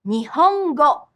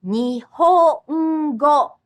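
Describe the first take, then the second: First: Nihongo at normal speed, falling; natural Japanese. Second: Nihongo very slow, ni-ho-n-go with the n held as its own beat; slow syllable demo. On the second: Teacher slowly showing learners the syllabic n. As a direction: stretch Nihongo to show the extra beat of n. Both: Shown as a demonstration.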